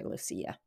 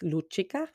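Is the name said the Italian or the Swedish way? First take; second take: Swedish; Italian. First: The name is said with a Swedish pronunciation. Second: The name is said with an Italian pronunciation. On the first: "the Swedish way" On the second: "in Italian is"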